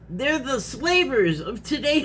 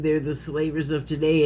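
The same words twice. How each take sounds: First: It is said emphatically, with force. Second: It is said calmly, without force.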